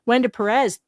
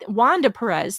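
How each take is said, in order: First: The first name is said as Wenda. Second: The first name is said as Wanda. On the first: The speaker calls it wrong. "I didn't mean to say Wenda" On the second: The speaker calls it right. "I know it's Wanda"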